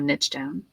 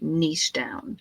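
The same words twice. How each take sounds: First: Niche is said in an American way. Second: Niche is said in a non-American way.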